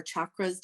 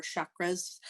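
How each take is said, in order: First: "chakras" starting with a hard CH sound; CH pronunciation. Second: "chakras" starting with a soft SH sound; SH pronunciation. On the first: Therapist offering the other pronunciation, "chakras" said with CH. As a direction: say "chakras" as CHAH-kruhz. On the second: Therapist listing energy body parts, "chakras" said with SH. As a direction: say "chakras" as SHAH-kruhz. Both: Shown as a demonstration. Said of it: "depending on how you pronounce it".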